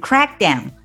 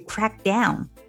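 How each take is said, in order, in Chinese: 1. 重音落在 crack 上。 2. 重音落在 down 上。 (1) "要重读的是前面的这个crack down" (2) "在这个地方我们要重读这个介词down"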